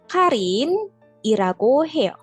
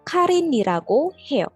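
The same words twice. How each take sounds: First: The phrase is said slowly and carefully. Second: The phrase is said quickly and smoothly. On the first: "Itu kalau bacanya pelan" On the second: "Kalau bacanya cepat"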